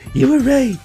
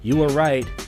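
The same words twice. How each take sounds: First: It is said in an imitated, put-on voice. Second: It is said in the speaker's normal voice.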